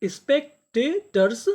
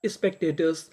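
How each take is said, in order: First: स्पेक्टेटर्स said slowly with a higher start; slow careful pronunciation. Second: Said in the usual way. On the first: Shown as a demonstration. Teacher to students, slow model of the word. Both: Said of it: "तो meaning क्या बनी?".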